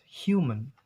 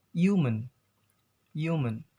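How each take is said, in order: First: "human" as hyoo-mun, slowly; British clear H. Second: "human" as yoo-mun, no h; American silent H. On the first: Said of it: "But in British accents". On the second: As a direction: drop the h from "human", American style. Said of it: "in American accents". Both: Shown as a demonstration.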